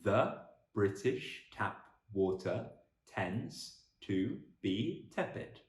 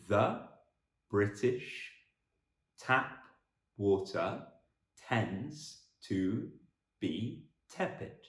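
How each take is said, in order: First: The sentence is spoken at a faster pace. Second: The sentence is spoken at a slow pace.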